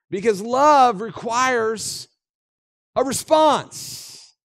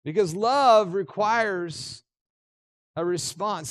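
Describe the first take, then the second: First: Slow and lifted, each word weighed; a preacher's slow emphatic statement; emphatic slow line. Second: Slow, falling away to soft on response; repeating the key line softer for the listeners to think on. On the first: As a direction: press it home slowly as the key point. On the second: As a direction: let it sink in quietly. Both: Shown as a demonstration.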